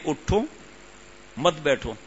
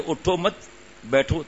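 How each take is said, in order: First: اٹھو on its own, a clear pause, then مت بیٹھو together; pause after اٹھو. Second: اٹھو مت run together, a pause, then بیٹھو alone; pause after مت. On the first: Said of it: "دنیاوی کلام دیکھیں کہ". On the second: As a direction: misplace the break, putting it after مت. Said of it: "اور کوئی پڑھے". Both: Shown as a demonstration.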